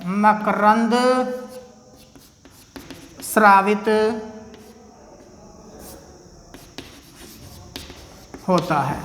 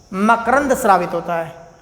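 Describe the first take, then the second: First: Each word held apart by long pauses; word-by-word dictation. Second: Said in the usual way. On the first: Shown as a demonstration. Teacher giving students time to write, word-by-word dictation.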